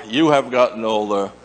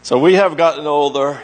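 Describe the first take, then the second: First: Gentle weight on "you", turning it back on them; stress on you. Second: Light weight on "we", the rest easy; stress on we. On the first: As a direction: point at the listeners on "you" in "you have gotten older". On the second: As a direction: push the word "we" in "So we have gotten older". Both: Shown as a demonstration. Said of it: "contrasting we and you".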